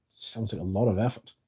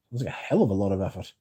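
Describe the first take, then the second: First: Said in the usual way. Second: "hell" leaned on, the line a bit faster; quicker retake, "hell" weighted; stress on hell. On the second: Shown as a demonstration. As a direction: punch "hell" and rush the rest.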